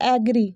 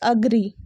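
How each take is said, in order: First: The first vowel sounds like 'eh'. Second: The first vowel sounds like 'uh'. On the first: The speaker calls it wrong. "It's not एग्री" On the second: The speaker calls it right. "It's अग्री"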